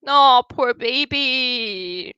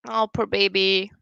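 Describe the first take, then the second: First: Slow, drawn-out pity for the cat; cooing. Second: Said in the usual way. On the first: Real, not acted. A streamer cooing over a viewer's sad old cat, slow and tender. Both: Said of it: "said twice, cooing then plain".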